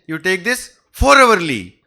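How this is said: The word four is said loudly and forcefully.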